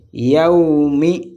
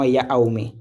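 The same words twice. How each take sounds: First: Slow, drawn-out "Yaoumi" with one yaw glide; joined glide. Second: "Yaoumi" split as ya-aou-mi; wrong split vowels. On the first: Teacher showing the right reading, joined glide. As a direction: stretch "Yaoumi" without breaking the glide. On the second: Teacher showing a beginner's mistake, wrong split vowels. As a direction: put a break after ya in "Yaoumi". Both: Shown as a demonstration. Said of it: "et non Yaoumi".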